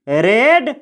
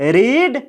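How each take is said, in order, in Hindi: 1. स्वर 'e' की छोटी ध्वनि है। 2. स्वर 'ee' की लंबी ध्वनि है। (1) "इसको पढ़ा जाता है रेड" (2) "इसको बोला जाता है रीड"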